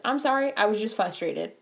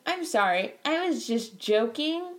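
First: Simple, sincere apology; genuine apology. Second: Drawn-out fake apology with rising end; insincere apology. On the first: Acted. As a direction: apologise plainly, letting it fall at the end. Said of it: "That's a genuine apology". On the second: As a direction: mimic a hollow apology, slowing on the excuse. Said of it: "Yeah, not genuine".

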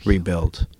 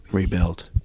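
First: Said in the usual way. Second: The last rebuild breathed out as a whisper. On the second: Acted. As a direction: let the word fade into a whisper. Third rebuild dropped to whisper.

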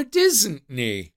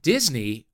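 First: Second "Disney" stretched as "Dizzn't-nee"; punning mispronunciation. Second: Said in the usual way. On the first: Shown as a demonstration. Host naming the fake-project option, "Disney" punned as "Disn't-ney". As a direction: say "Disney" like "Disn't-ney", leaning on the first syllable. Quiz title puns on Disney.

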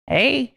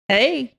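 First: Second, better clown greeting. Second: Playful clown greeting, a bit high; weak first try at the clown. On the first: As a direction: redo the clown hey. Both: Pretend. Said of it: "I didn't do it good".

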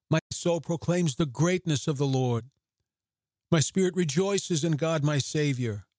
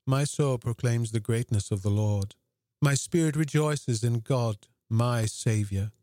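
First: A touch more lift, joyful proclamation; mild excitement, Mary beside herself with joy. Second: Calm. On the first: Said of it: "I see her saying this with great excitement". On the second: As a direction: recite it calm and humble, eyes downcast. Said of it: "we imagine her being very calm". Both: Shown as a demonstration.

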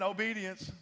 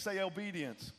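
First: Mean the word "obedience"; "obedience" with firm conviction; emphatic OBEDIENCE. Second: Said in the usual way. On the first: Shown as a demonstration. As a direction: say "obedience" firmly, a little stronger. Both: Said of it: "Say it like you mean it".

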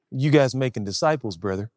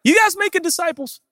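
First: Gruff believer. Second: High, pressing question; intense believer. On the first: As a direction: press it gruffly at usual pitch, dropping on brother. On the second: Zealous Christian quizzing pastor at the store, high and intense. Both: Acted. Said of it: "you're intense, we're gruff".

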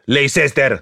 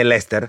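First: Leicester said letter by letter as LAY-ses-ter; spelling pronunciation. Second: Leicester said as two syllables, LES-tuh; correct English pronunciation. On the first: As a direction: read Leicester as three syllables, LAY-SES-TER, rolled r. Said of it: "πώς στο καλό να προφέρεις". (Leicester όπως γράφεται, «Λέισεστερ») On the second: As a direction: shorten Leicester to LES-ter. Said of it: "ενώ είναι Leicester". (Leicester με δύο συλλαβές, «Λέστερ») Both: Shown as a demonstration.

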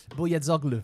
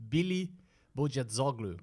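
First: Bojazzoglu repeated with a Greek accent; Greek-accent attempt. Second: Billy Bojazzoglu read out carefully as Italian; Italian-style pronunciation. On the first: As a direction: copy the Greek accent on the surname. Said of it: "that's with a Greek accent". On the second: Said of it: "I've got the Italian spelling". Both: Shown as a demonstration.

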